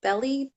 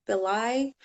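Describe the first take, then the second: First: "Belli" ending in an EE sound; "Belli" as BELL-ee; first pronunciation. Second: "Belli" ending in an EYE sound; "Belli" rhyming with "reply"; alternative pronunciation. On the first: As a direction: say "Belli" to rhyme with jelly. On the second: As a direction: say "Belli" as beh-LIE, unsure. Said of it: "attorney Melvin Belli". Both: Real, not acted.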